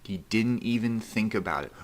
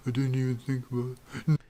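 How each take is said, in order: First: Said in the usual way. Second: High, quick mock mumble; put-on high mumbling voice; imitated miserable mumble. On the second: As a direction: mimic his miserable mumbling, pitched up and rushed. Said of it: "He miserably mumbled to me".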